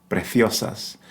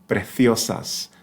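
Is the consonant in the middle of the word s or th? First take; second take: th; th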